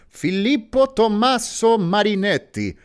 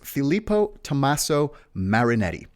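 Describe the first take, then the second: First: It is said in an Italian accent. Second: It is said in his ordinary accent.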